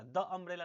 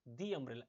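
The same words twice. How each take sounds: First: द said "duh" before umbrella; wrong THE, "duh". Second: दी said "dee" before umbrella. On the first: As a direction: say द with a short open vowel. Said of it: "द umbrella नहीं होगा". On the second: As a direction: say दी with a long ee, lower. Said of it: "इस द को हम क्या बोलेंगे". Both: Shown as a demonstration.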